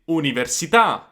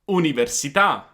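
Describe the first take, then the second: No difference in how they are said.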